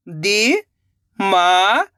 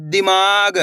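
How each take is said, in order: First: Very slow, stretched syllables, rising at the end; sounding out syllables. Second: Said in the usual way. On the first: Shown as a demonstration. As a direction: sound it out slowly, letter by letter. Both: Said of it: "एक एक अक्षर का उच्चारण करके".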